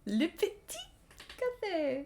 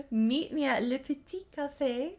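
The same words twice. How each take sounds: First: Le Petit Café sung high in a playful fake French lilt; playful French café name; mock French. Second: Le Petit Café in a high, hammed-up French sing-song; over-the-top fake French flourish; mock French café name. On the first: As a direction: toss off Le Petit Café like a caricature Parisian. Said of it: "Le Petit Café literally just means". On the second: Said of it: "laughs then repeats line". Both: Shown as a demonstration.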